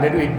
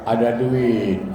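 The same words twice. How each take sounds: First: The vowels are kept short and plain. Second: The vowels are drawn out longer. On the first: The speaker calls it wrong. "Eh tak enak begini" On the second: The speaker calls it right. "Kan enak begini"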